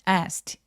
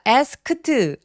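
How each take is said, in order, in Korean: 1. 그 어미는 짧은 t 소리예요. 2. 그 어미는 추가 음절로 발음해요. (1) "ed는 통으로 트로 발음을 합니다" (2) "asked 아니고요"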